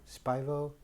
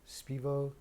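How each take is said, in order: First: Spivo said as SPY-voh, soft and tentative; trying a name. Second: Spivo said as SPEE-voh, soft and tentative; trying a name. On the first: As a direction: try Spivo with an eye sound, unsure. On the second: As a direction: try Spivo with an ee sound, unsure. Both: Shown as a demonstration. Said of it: "I don't even know how to say it".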